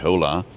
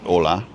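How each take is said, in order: First: The word starts with an audible H sound. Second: The word starts with a vowel, no H sound. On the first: The speaker calls it wrong. "you don't say hola" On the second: The speaker calls it right. "you don't pronounce the H in Spanish"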